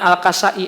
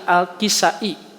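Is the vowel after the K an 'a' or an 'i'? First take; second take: a; i. First: The vowel after the K is 'a'. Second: The vowel after the K is 'i'. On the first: The speaker calls it wrong. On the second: The speaker calls it right.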